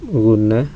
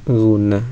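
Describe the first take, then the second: The two takes are said the same way.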